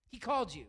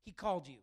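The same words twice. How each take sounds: First: "He called you" louder, with "called" hit hard; emphatic repeat. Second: Said in the usual way. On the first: Real, not acted.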